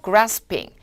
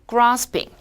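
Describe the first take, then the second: First: It is said in a non-British accent. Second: It is said in a British accent.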